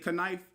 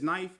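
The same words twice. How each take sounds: First: The initial K sound is pronounced. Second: The initial K sound is silent. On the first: The speaker calls it wrong. "you wouldn't say knife" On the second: The speaker calls it right. "It's just knife. Like how the K in knife is silent"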